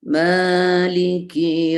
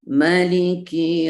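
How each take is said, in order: First: The first vowel is held long. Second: The first vowel is cut short. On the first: It means the owner. "Emanya panjang" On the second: It means the king. "Mimnya pendek"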